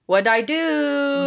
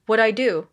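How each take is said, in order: First: "What'd I do" higher, with a long stretched DO; drawn-out protest. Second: Said in the usual way. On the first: Retold or imitated. Clueless dad after his wife leaves, drawn-out high "What'd I do". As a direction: stretch out "do" slowly, pitched up. Second take, dad's line exaggerated.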